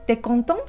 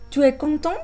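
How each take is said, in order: First: The u of tu is dropped, said quickly. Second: The u of tu is fully pronounced. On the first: "si lo quiero decir rápidamente" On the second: "Pues digo"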